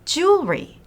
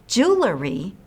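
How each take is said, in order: First: No vowel is added between jewel and ry. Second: An extra vowel is added between jewel and ry. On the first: The speaker calls it right. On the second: The speaker calls it wrong. "many people want to put an extra E in the word, but that's not right"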